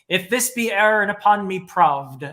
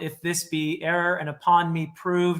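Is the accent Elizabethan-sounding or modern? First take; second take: Elizabethan; modern. First: It is spoken in an old, pirate-like English accent. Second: It is spoken in a modern English accent.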